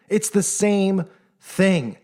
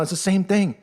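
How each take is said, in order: First: "It's the same thing" said very slowly, each word weighted; slow emphatic repeat. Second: Said in the usual way. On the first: Real, not acted. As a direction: drag out "It's the same thing" to drive it home.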